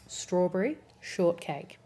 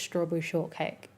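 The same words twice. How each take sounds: First: "Strawberry Shortcake" said slowly, word by word; careful second-guessed pronunciation. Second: Said in the usual way. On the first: Real, not acted. Streamer second-guessing how to say "Strawberry Shortcake", slow and careful. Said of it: "second guessed myself". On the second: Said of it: "I said it right the first time".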